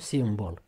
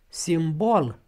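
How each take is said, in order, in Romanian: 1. Accentul cade pe prima silabă. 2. Accentul cade pe a doua silabă. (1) "și nu simbol" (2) "simbol accentuat O"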